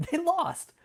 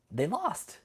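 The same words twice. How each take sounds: First: High, laughing, louder; gleeful laughing gloat. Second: Said in the usual way. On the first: Real, not acted. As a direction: crow about the win through laughter. Repeats it with a laugh.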